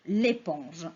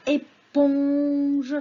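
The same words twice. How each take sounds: First: Said in the usual way. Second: "éponge" very slow, "pon" held long; sounding out. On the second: Shown as a demonstration. Teacher lets children hear the syllable, sounding it out. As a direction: stretch "éponge" loudly so "pon" stands out.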